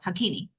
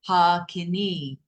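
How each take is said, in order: First: The first and last vowels are short. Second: The first and last vowels are long. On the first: The speaker calls it wrong. "the consonants and the short vowels" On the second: The speaker calls it right. "those two lines require the vowel to be double the length of the sound"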